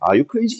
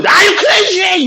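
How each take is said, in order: First: Said in the usual way. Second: High, drawn-out outraged yell; outraged shout. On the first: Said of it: "이게 아니라고". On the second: Shown as a demonstration. Teacher showing the right way to say it, outraged shout. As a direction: hurl CRAZY out slowly at a high pitch. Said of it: "이래야 돼".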